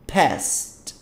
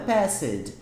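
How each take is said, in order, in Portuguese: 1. A palavra é dita com uma sílaba. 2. A palavra tem uma vogal a mais, são duas sílabas. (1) "olha a pronúncia. Past, past" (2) "não coloque E nessa pronúncia"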